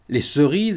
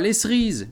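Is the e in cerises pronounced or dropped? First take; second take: pronounced; dropped. First: The e in the first syllable is pronounced. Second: The e in the first syllable is dropped. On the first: The speaker calls it right. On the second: The speaker calls it wrong.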